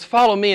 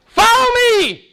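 First: It is said timidly and sheepishly. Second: It is said strongly and forcefully.

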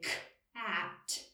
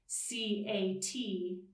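First: The letters are said as their speech sounds. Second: Each letter is said by its alphabet name. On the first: The speaker calls it right. "it sounds a lot closer to the word cat" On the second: The speaker calls it wrong. "that doesn't sound like cat"

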